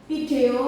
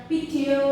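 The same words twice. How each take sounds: Both takes have the same delivery.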